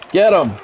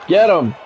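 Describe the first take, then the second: No difference in how they are said.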